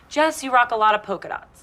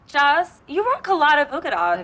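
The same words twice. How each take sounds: First: The line is said in a plain, neutral tone. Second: The line is said in a snide, cutting tone.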